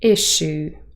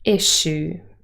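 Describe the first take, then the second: First: The middle sounds like 'sh', s and y merged. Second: The same.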